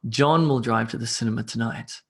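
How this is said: The stress falls on the word John. It is John, not someone else, who drives. "putting emphasis on the person there"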